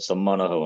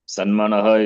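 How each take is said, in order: First: The first syllable ends in an m sound. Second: The first syllable ends in an n sound. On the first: The speaker calls it right. "Sammanaha only" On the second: The speaker calls it wrong. "Sanmanaha is not there"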